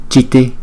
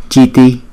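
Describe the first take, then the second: No difference in how they are said.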